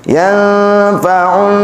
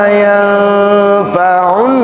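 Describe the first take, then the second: No difference in how they are said.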